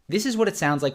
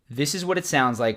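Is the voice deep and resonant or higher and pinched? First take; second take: pinched; deep. First: The voice is higher pitched and pinched. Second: The voice is deep, low and resonant. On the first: The speaker calls it wrong. "when I breathe shallow and contract more from my throat" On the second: The speaker calls it right. "when I breathe deep and speak from my diaphragm"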